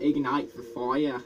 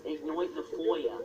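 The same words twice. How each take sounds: First: Slow British accent on the phrase; own British accent. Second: Mock British accent, FOYA with an oy; weird put-on accent. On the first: Showing friend the better accent, slow British accent. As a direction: say it slowly, properly British. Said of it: "my accent is better than yours". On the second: Correcting the British friend's take, weird mock accent. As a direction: correct them in a silly oy-vowelled accent. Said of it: "my weird accent". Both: Shown as a demonstration.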